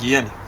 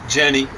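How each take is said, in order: First: The name is said the German way. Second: The name is said the English way.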